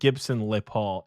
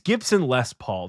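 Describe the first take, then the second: First: The middle word is said without an S sound. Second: The middle word is said with an S sound. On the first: The speaker calls it wrong. "I always mess that up because like it's spelled Gibson LePaul" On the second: The speaker calls it right. "It's Gibson Les Paul, the guitar"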